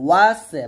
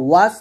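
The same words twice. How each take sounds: First: ওয়াসে with an added final "e"; wrong pronunciation. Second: ওয়াস closed on a bare s; no vowel after the s of ওয়াস; correct pronunciation. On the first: Teacher mimics students' mistake, ওয়াসে with extra vowel. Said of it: "ওয়াস না বলে ওয়াসে". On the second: Teacher contrasts with the mistake, ওয়াস stopped on s. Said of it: "ওয়াস হবে". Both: Shown as a demonstration.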